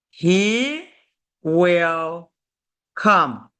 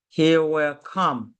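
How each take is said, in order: First: "He... will... come", each word set apart by a pause. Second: Said in the usual way. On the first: Shown as a demonstration. Teacher showing learners a future sentence, word by word. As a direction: dictate "He will come" one separated word at a time.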